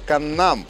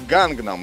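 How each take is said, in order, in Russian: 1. Начинается с K, ударение на втором слоге. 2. Начинается с G и содержит G внутри. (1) "Правильное же произношение именно Каннам, где ударение идет именно на второй слог «нам»" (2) "это неправильное произношение, основанное на английской транслитерации"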